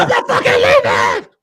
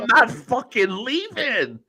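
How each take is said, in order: First: Screamed high and loud, mocking a tantrum; defiant shout. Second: Drawn out, slow and higher, stubborn; slow mock defiance. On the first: Mocking Vince's speech as a tantrum, high defiant shout. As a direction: yell it like a man who won't budge. Wolf of Wall Street scene quote. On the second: Repeating the meme to friends, slow mocking drawl. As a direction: stretch every word like a stubborn kid.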